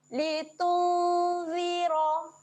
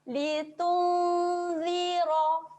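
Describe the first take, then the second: No difference in how they are said.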